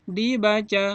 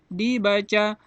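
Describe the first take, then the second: The two takes are said the same way.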